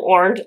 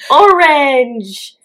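First: The word is said in the ordinary way. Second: The word is drawn out and split apart. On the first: This is the usual way to say it. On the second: This is how the singers say it.

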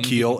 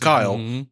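First: The name rhymes with feel. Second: The name rhymes with mile. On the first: This is what friends jokingly call him. "but we all call him Keel" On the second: This is the name's real pronunciation. "Just to clear it up, it's Kyle"

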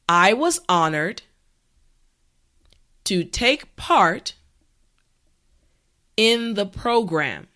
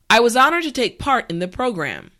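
First: The sentence is said slowly and carefully. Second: The sentence is said at natural speed. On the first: "this time repeat after me" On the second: "this time we will go at a more natural pace"

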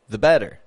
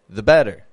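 First: The schwa in 'the' is quick and barely audible. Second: The same.

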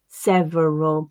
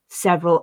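First: The word is said with an extra middle syllable. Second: The middle syllable is dropped from the word. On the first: The speaker calls it wrong. "my learners would often read as" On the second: The speaker calls it right. "they tend to be reduced to"

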